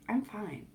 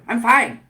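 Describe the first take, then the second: First: It sounds calm and smiling. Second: It sounds tense and a little aggressive.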